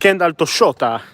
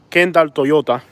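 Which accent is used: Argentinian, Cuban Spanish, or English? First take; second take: Argentinian; Cuban Spanish. First: It is said with an Argentinian accent. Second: It is said with a Cuban Spanish accent. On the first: "But in Argentinian, it's" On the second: "Cuban Spanish would be"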